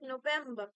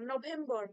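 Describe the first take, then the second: First: The stress is on the second syllable. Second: The stress is on the first syllable. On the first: The speaker calls it right. "Actual pronunciation হওয়া উচিত November ... ভি ই এম টার উপরে একটা stress থাকতে হবে" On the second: The speaker calls it wrong. "আমরাও একসময় আমরাও বলতাম নভেম্বর"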